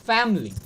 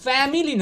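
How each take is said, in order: First: ফ্যামিলি in two syllables, "FAM-li"; correct pronunciation. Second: ফ্যামিলি in three syllables, "fa-mi-li"; the wrong, fuller ফ্যামিলি; common mispronunciation. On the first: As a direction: drop the middle "i" of ফ্যামিলি. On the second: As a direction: sound the middle "i" in ফ্যামিলি. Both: Shown as a demonstration. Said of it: "ফ্যামিলি না".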